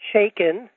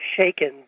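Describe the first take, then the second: First: The name begins with 'ch' as in church. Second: The name does not begin with 'ch'. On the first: The speaker calls it right. "like church" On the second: The speaker calls it wrong. "Some people have mispronounced it as"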